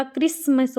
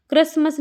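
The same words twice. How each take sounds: First: "क्रिसमस" with a clear i, "kris-mas"; correct pronunciation. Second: "क्रिसमस" with a short uh in the first syllable, "kras-mas"; wrong pronunciation. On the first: Teacher correcting students' spelling, "क्रिसमस" said clearly as "kris-mas". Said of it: "होता है". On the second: Teacher showing students the mistake, "क्रिसमस" mispronounced as "kras-mas". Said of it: "नहीं होता". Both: Shown as a demonstration.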